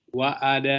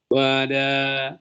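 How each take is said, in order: First: The middle vowel is clearly separated by a break. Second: The middle vowel is blended without a clear break. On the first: The speaker calls it right. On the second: The speaker calls it wrong.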